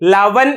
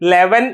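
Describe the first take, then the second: First: The first vowel sounds like a. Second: The first vowel sounds like e. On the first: It follows the written spelling. "ലവൻ എന്ന് എഴുതിയിട്ട്" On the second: It is the everyday spoken form. "ലെവൻ എന്ന് വായിക്കുന്നു"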